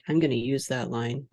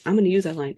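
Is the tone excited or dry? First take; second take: dry; excited. First: It is said dryly, trailing off. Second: It is said with excited emphasis.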